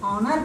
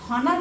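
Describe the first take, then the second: First: The word starts directly with a vowel sound. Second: The word starts with an audible h sound. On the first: The speaker calls it right. "हम इसको ऑनर पढ़ेंगे" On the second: The speaker calls it wrong. "ये हॉनर नहीं पढ़ेंगे"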